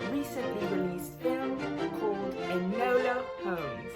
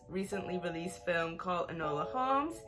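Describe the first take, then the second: First: It is spoken in a put-on British accent. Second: It is spoken in a natural American accent. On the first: "why am I talking like this? ... I love British accents" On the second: "I can't keep that up. But for real though"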